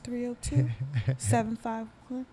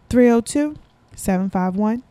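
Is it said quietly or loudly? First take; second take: quietly; loudly. First: It is said quietly, too low. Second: It is said louder than before.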